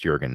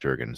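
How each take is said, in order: First: The name begins with a soft J sound. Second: The name begins with a hard J sound. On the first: The speaker calls it right. "I think it's Jürgen" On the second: The speaker calls it wrong. "not Juergen, sorry, I I hard J on that one"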